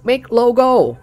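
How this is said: It is said in a Chinese-style accent.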